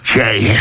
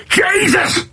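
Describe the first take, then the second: First: Said in the usual way. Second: Jesus yelled high and exasperated, mocking a rugby coach. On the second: Rugby coach yelling at a player who misses tackles, high exasperated cry. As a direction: throw up a high mock yell of Jesus. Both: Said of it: "I heard that quite a lot".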